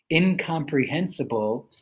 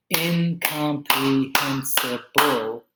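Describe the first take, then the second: First: Said in the usual way. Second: Incomprehensible drawn out slowly beat by beat; slow syllable clapping. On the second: Shown as a demonstration. Teacher claps out incomprehensible slowly for students. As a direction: break incomprehensible into slow, separate beats. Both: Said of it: "clapping syllables demo".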